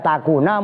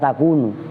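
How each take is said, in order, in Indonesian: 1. Kata ini berakhir dengan vokal a. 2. Kata ini berakhir dengan vokal u. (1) "dibaca nasab" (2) "dibaca alla takunu, nu berarti rofa"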